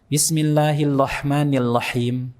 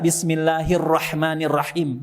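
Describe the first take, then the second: First: The r sounds are said like l. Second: The r sounds are said as clear r. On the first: The reciter cannot pronounce the letter ra. The speaker calls it wrong. "biasanya ro ya. Lo" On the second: The reciter pronounces the letter ra fluently. The speaker calls it right. "Sedangkan antum bisa"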